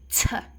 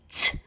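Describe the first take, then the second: First: The t is followed by an extra vowel sound. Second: The t is said alone, with no vowel after. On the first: The speaker calls it wrong. "I am now going to change it" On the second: The speaker calls it right. "which is pure"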